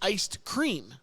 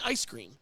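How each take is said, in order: First: It is said carefully with a d sound. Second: It is said quickly with no d sound. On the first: "but really it's iced cream" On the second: "When you say it fast and lazy"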